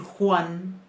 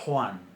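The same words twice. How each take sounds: First: The first consonant is soft and breathy. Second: The first consonant is harsh, far back in the throat. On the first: This is how the speaker's own community says it. "en vez de decir Juan" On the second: This is how some people from Spain say it. "dicen Juan. Más atrás en la garganta"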